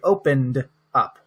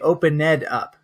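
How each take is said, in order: First: The n runs straight into the d sound. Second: The -ed ending is said as a separate sound. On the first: The speaker calls it right. "It's like the N goes to the D" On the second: The speaker calls it wrong. "I do not say opened up. That is incorrect"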